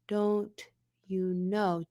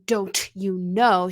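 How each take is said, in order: First: The consonants are lightly articulated, just enough. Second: The consonants are heavily over-articulated and exaggerated. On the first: "She's going" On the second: "she's not going"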